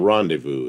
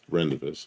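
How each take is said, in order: First: The word is pronounced the French way. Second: The word is pronounced the English way. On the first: The speaker calls it right. "it's a rendezvous is how you pronounce that word" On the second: The speaker calls it wrong. "it's not pronounced Rendezvous"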